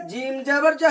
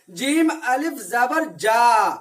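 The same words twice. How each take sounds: First: जीम जबर जा read quickly, no stretch on the vowel; plain quick spelling without lengthening; short vowel reading. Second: जीम अलिफ जबर जा read slowly, stretching the final जा; teacher demonstrating the long जा; drawn-out long vowel. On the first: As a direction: keep the जा short, not drawn. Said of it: "ज अ पढ़ेंगे". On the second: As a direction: hold the जा long like a madda. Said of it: "इस जबर को खींच के पढ़ेंगे थोड़ा". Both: Shown as a demonstration.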